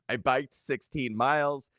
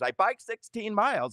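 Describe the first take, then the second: First: Said in the usual way. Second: High, baffled repeating voice; bewildered mother. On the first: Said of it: "And she said". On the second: Retold or imitated. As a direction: play a mum dazed after a stroke. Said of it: "she told the nurses, the doctor".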